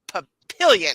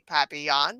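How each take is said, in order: First: It is pronounced the English way. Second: It is pronounced the French way. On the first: This is how locals say the town name. "we say Papillion" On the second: This is the original French word. "French for butterfly, but we don't say papillon"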